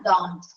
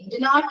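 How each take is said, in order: First: It is said as one contracted word. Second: It is said as two full words. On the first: The speaker calls it right. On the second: The speaker calls it wrong.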